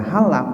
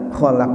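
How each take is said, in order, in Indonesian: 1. Diawali dengan bunyi h yang berhembus. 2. Diawali dengan bunyi kh tenggorokan yang serak. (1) "keliru membacanya kholak dibaca halak, jadi kho menjadi ha" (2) "kholak artinya maha pencipta"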